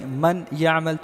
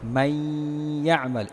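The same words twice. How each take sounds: First: The n is pronounced separately, without nasal merging. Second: The n merges into y with a nasal hum. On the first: The speaker calls it wrong. "अगर आप ऐसा पढ़ेंगे मन यामल तो ये गलत होगा" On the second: The speaker calls it right. "इदगाम भी होगा और गुन्ना भी होगा"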